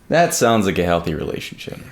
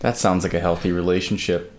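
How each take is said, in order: First: The voice is lively with varied pitch. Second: The voice is flat and monotone. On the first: The speaker calls it right. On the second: The speaker calls it wrong.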